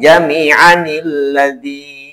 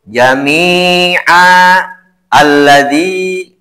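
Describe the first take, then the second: First: The words are joined with an added nil sound. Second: The words are said separately, with a stop between. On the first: "yang bagus mah disatukan" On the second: "bila fathatain diberhentikan"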